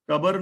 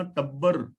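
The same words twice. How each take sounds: First: ਟੱਬਰ with a short single "b"; ਟੱਬਰ misread as "ta-bar"; wrong reading. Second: ਟੱਬਰ with a doubled "b"; ਟੱਬਰ as "tab-bar", the consonant doubled; correct reading. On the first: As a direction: say ਟੱਬਰ without doubling the "b". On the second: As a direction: hold the "b" in ਟੱਬਰ. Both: Shown as a demonstration. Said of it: "ਟੱਬਰ ਨਹੀਂ ਪੜਨਾ".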